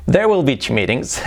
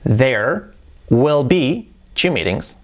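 First: Said in the usual way. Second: Very slow, careful teacher model; slow model sentence. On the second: Shown as a demonstration. Teacher models the future sentence for students, slowly. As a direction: spell it out slowly for learners. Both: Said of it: "¿Cómo sería eso?".

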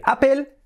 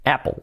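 First: "Apple" as "á-pel"; the not-to-say "Apple", clear e and l; Spanish-style Apple. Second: "Apple" as "ap-ol", dark l; English-style Apple. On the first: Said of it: "nada de Apple". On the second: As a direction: say "Apple" with a swallowed final l. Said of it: "será Apple". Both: Shown as a demonstration.

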